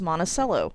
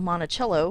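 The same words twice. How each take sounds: First: The name is said with an anglicized pronunciation. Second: The name is said with Italian pronunciation. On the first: It is the local name of the Illinois town. The speaker calls it wrong. "why on earth does it get pronounced as" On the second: It is the name of the original home. The speaker calls it right. "which is Italian"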